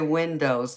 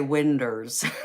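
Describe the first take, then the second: First: The word ends with an 'oh' sound. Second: The word ends with an 'er' sound. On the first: This is the general pronunciation. "they don't say windows" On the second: This is how some Southerners say it. "they say winders"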